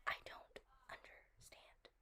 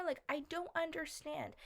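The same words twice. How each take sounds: First: Slow, much softer whisper; a baffled whisper to herself. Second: Said in the usual way. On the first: Real, not acted. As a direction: let it fall away into a whisper. Repeats it, drops to whisper.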